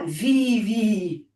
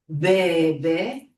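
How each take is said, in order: First: It begins with a v and ends in i. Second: It begins with a b and ends in e. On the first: This is how modern Greek speakers would read it. The speaker calls it wrong. "si on le prononce en grec moderne, on dira vivi" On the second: This is how the sheep's cry was said in ancient Greek. The speaker calls it right. "des moutons disent bé, bé"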